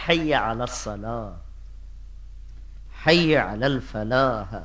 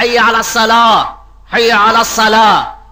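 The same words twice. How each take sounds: First: Soft gentle call. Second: Louder call to prayer. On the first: Retold or imitated. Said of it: "لہجے". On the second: Shown as a demonstration. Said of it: "دو دفعہ کیوں پکارا".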